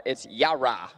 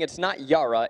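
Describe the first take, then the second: First: "Yara" split into ya and ra; separated syllables. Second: "Yara" run together with open ah; long open Yara. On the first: Co-host relaying the audience's correction, syllables separated. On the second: Co-host showing the disputed version, run-together pronunciation. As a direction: say "Yara" as one rising, unbroken word. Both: Shown as a demonstration. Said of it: "separating the ya and the ra".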